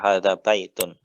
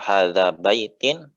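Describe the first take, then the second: First: The last word ends with an 'un' sound. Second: The last word ends with an 'in' sound. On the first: The speaker calls it right. "perhatikan harokatnya" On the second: The speaker calls it wrong. "nanti lawan bicara nggak paham"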